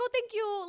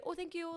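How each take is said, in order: First: High, sing-song fake thanks, louder; sweetly sarcastic thank-you to a rude guy; mock polite thanks. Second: Lightly raised, softer polite thanks; a mild, understated thank-you, toned down. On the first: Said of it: "And I was like". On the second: Retold or imitated. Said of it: "Like, I actually think I said".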